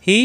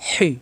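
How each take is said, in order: First: Easy glottal h in "হি"; light ha. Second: "হি" with a constricted pharyngeal h; strong Arabic h in "হি"; pressed throat ha. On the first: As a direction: let "হি" out without squeezing. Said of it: "হাকার উচ্চারণ". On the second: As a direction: force "হি" through a tight throat. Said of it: "কণ্ঠনালীতে চাপ দিয়ে". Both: Shown as a demonstration.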